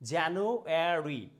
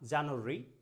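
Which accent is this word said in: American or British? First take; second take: American; British. First: It is said in an American accent. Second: It is said in a British accent. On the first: "American স্ট্যান্ডার্ডে করতে চান, যে US অ্যাকসেন্টে" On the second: "British অ্যাকসেন্টে ওরা এটাকে বলছে"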